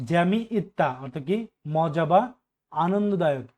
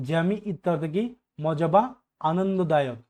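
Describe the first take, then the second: No difference in how they are said.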